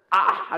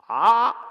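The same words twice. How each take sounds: First: An open, round "아" like a yawn; "아" with a wide, lifted, yawning space. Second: A pinched, pushed "아" sent straight ahead; "아" aimed straight out, squeezed and narrow. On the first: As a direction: sing "아" as if yawning, throat wide. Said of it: "이렇게 내야 된다라고 했습니다". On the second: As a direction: push "아" straight forward, narrow and tight. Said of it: "정면으로 똑바로 이렇게 내면 쓸모없는 소리가 된다". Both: Shown as a demonstration.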